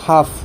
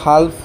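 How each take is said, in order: First: The L sound is left out of the word. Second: The L sound is pronounced in the word. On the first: The speaker calls it right. "সঠিক উচ্চাৰণটো হ'ল হাফ" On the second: The speaker calls it wrong. "বহুতেতো হাল্প কৰিব"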